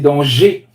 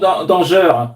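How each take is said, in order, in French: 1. La dernière syllabe se termine par la voyelle 'ay'. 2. La dernière syllabe ne se termine pas par 'ay'. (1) "Comme si c'était un et accent aigu" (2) "tu disais toujours danger"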